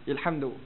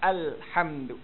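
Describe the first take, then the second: First: The first vowel sounds like 'i'. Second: The first vowel sounds like 'a'. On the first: The speaker calls it wrong. "dia macam tergesa-gesa dia sebut ilhamdu" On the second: The speaker calls it right. "Sebutannya alhamdu. Al al al"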